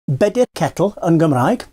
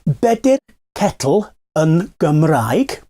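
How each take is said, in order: First: The phrase is said at normal speed. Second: The phrase is said slowly and carefully.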